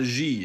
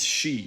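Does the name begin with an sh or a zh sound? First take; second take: zh; sh. First: The name begins with a zh sound. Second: The name begins with an sh sound. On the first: The speaker calls it wrong. "This guy's name is not Xi" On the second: The speaker calls it right. "it's Shi"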